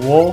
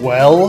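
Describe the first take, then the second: First: The vowel is broadened so it sounds like 'wall'. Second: The vowel is the usual short 'e' sound. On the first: "they'll say like wall" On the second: "instead of saying well"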